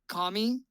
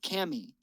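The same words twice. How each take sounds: First: The first vowel is an open 'ah' sound. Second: The first vowel is a flat 'a' sound. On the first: "like the Japanese word for God" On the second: "like a camisole top"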